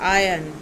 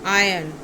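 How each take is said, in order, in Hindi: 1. इस शब्द में 'r' की ध्वनि साइलेंट है। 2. इस शब्द में 'r' की ध्वनि साइलेंट है।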